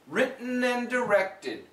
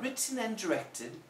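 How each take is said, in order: First: The T in written is a glottal stop. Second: The T in written is fully released. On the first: "Now here we have a glottal stop T" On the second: "that's lovely British English"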